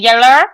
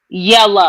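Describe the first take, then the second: First: The word ends with an 'er' sound. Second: The word ends with an 'ah' vowel. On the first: This is how someone else says it. The speaker calls it wrong. "not yeller. That's what Rodney be saying" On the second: This is how the family says it. The speaker calls it right. "called it yellow with an A or A H"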